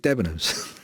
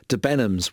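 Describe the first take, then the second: First: Debenhams said as DEB-en-ums; usual pronunciation. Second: Debenhams said as de-BEN-ums; mistaken pronunciation. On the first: Shown as a demonstration. Explaining what the couple wanted, DEB-en-ums for Debenhams. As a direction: stress the first syllable of Debenhams. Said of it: "they actually wanted Debenhams". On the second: Retold or imitated. Quoting a South African couple asking directions, de-BEN-ums for Debenhams. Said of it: "took me a while to work out".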